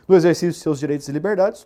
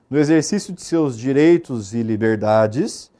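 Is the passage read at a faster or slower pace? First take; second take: faster; slower. First: It is read at a noticeably faster pace. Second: It is read at a slower, normal pace.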